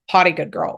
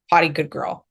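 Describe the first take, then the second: First: It is said in a flat, neutral tone. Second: The same.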